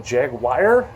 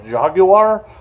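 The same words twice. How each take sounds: First: Jaguar said as "jag-wire", rising; alternative pronunciation. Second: Jaguar said as "zhah-gu-ar"; foreign-style pronunciation. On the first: Vlogger testing ways to name a car, Jaguar as "jag-wire". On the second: Vlogger testing ways to name a car, Jaguar as "zhah-gu-ar". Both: Shown as a demonstration. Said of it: "that's the way to pronounce it".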